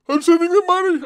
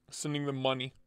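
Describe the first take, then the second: First: Loud, high-pitched exclamation; high yell. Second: Soft, understated delivery; low-key statement. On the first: Streamer repeats his vow to send money, high-pitched yell. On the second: Streamer vows to pay whoever goes to Blade Show, quietly. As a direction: say it quietly, almost to yourself. First take before shouted repeat. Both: Real, not acted.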